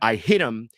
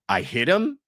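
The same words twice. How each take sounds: First: The voice falls at the end like a statement. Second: The voice rises at the end like a question. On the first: She admits she struck him. "as a declaratory sentence" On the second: She is asking whether she struck him. "She's saying it as a question"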